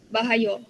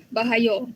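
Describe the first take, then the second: Both takes have the same delivery.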